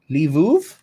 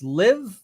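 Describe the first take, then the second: First: The name is said as two syllables. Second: The name is said as one short syllable. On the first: The speaker calls it right. "apparently that L V I V is Lviv" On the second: The speaker calls it wrong. "I believe you'd pronounce this Liv, but I'm probably entirely wrong about that"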